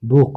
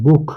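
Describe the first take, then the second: First: "বুক" again, louder, with a throaty kh ending; German ch repeat. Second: "বুক" ending in a throaty kh sound, louder; German ch demo. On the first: Teacher repeats "বুক" for students to copy the ch. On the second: Teacher shows students the throaty ch in "বুক". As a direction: push a breathy kh at the end of "বুক". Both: Shown as a demonstration. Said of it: "খ এর মতো".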